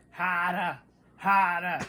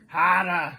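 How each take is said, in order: First: Mock Boston accent, dropped R's. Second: Loud, hammed-up Boston "hahdah"; exaggerated Boston accent. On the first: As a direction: imitate a movie Bostonian saying "hahdah". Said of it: "Ben Affleck is doing a Boston accent in a movie". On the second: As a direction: lay the Boston accent on thicker and louder. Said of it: "give it a little more Boston".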